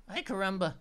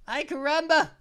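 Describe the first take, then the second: First: Said in the usual way. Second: Louder, punchy exclamation; exclaimed catchphrase. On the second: Pretend. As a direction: throw it out with gusto. Repeats catchphrase twice.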